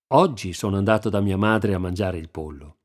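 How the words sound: The stress is on "oggi".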